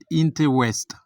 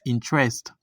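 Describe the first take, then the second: First: Every syllable is pronounced fully. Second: A middle syllable is swallowed. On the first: The speaker calls it wrong. "It's not interest" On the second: The speaker calls it right. "It's interest"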